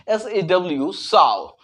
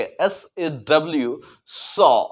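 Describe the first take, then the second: First: साव with an "ow" glide; common mispronunciation. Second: सॉ as a pure "saw"; correct open vowel. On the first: Teacher quoting what is often heard, mispronounced "sao". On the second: Teacher correcting the common reading, said "saw". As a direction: say सॉ with open "aw", no glide. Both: Shown as a demonstration. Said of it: "लेकिन ऐसा नहीं बोल के".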